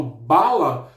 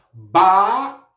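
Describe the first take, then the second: First: Said in the usual way. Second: "bala" with BA held long and loud; stress on BA. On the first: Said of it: "pronuncio com mais intensidade". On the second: Shown as a demonstration. Teacher showing pupils the strongest syllable, BA stressed hard in "bala". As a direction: punch and stretch the "ba" in "bala". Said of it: "o ba é a minha sílaba mais forte".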